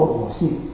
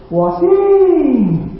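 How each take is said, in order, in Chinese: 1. 这句话是用平常、正常的声音说的。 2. 这句话是提高音量、音调升高说的。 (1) "马大不是说我信" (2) "他一定高一点的程度"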